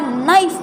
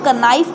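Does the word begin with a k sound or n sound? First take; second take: n sound; k sound. First: The word starts with an n sound. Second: The word starts with a k sound. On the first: The speaker calls it right. "सीधा नाइफ बोला" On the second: The speaker calls it wrong. "यहाँ पर के बोलेंगे तो वो गलत हो जाएगा"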